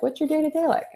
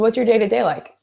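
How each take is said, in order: First: It sounds warm and genuinely curious. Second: It sounds flat and detached, like an interview. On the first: The asker truly wants to know. The speaker calls it right. "It's more of like" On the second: The questions are just a checklist. The speaker calls it wrong. "that all depends on your tone of voice. Like if you're sitting here like"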